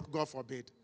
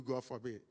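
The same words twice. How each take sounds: First: "God forbid" dropped low and soft, the way people say it; "God forbid" said the way they say it. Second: "God forbid" low and soft, as people say it; "God forbid" said the way they say it. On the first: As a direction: mimic how people mutter "God forbid". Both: Shown as a demonstration. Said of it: "There is a way they do".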